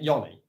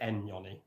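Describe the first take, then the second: First: The name starts without an N sound. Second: The name starts with an N sound.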